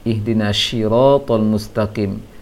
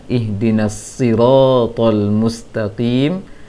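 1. Kata sirat diawali dengan bunyi sh. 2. Kata sirat diawali dengan s tebal emfatik. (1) "yang dibaca oleh [name]"

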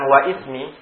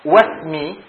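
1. Vokal i tambahan ada di antara wa dan smi. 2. Wa langsung bertemu smi tanpa vokal. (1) "bukan waismi" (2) "maka wasmi"

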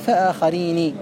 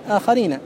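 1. تُنطق النون الأخيرة بكسرة. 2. تُنطق النون الأخيرة بفتحة. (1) "وقل من نطق بكسرها" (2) "كان الأصل أن يقال آخرين"

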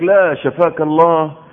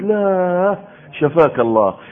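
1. تتصل الكلمات ببعضها بدون وقفة. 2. توجد وقفة بعد الكلمة الأولى. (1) "لا شفاك الله يا راجل، لازم تدخل واو" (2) "فتجيب فاصل بالله وتجيب شفاك الله"

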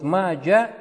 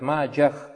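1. Имя заканчивается на обычный гласный, без h. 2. Имя заканчивается слышимым звуком h. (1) "Вот маджа – неправильно говорит" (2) "хэ обязательно должно"

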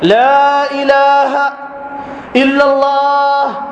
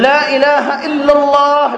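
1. يوجد وقف بعد كلمة ilah. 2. يُقال بدون وقف بعد ilah. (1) "الوقف على إله" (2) "قل لا إله إلا الله"

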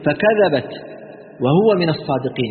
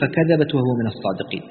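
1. توجد وقفة واضحة بعد "فكذبت". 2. تستمر العبارة دون وقف بعد "فكذبت".

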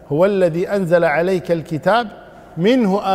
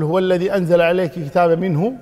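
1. توجد وقفة بعد al-kitab، قبل minhu. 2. توجد وقفة بعد minhu، لا قبلها. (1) "أو تقف على الكتاب" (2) "عندما تقول هو الذي أنزل عليك الكتاب منه ثم تقول آيات محكمات"

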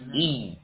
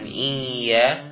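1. Vokalnya pendek, ditekan ke huruf y. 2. Vokalnya dipanjangkan. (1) "tapi i" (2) "Bukan iya"

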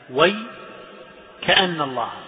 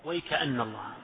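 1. يوجد وقف مباشرة بعد 'way'. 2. الكلمات متصلة دون وقف. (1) "ووقف الكسائي على وي" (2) "والباقون وصل"

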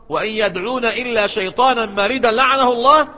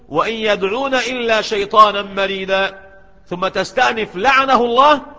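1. العبارة الأخيرة تأتي متصلة بدون وقف. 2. يوجد وقف قبل العبارة الأخيرة. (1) "بخلاف الوصل" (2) "حين تقول وإن يدعون إلا شيطانا مريدا ثم تستأنف لعنه الله"

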